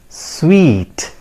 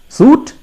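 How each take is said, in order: First: It is said like the word sweet. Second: It is said like the word suit. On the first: The speaker calls it right. "It is pronounced as sweet" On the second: The speaker calls it wrong. "that's a wrong pronunciation"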